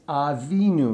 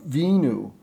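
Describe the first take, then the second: First: The opening 'a' syllable is clearly pronounced. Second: The opening 'a' syllable is left out. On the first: The speaker calls it right. "It's Avinu" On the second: The speaker calls it wrong. "not just Vinu"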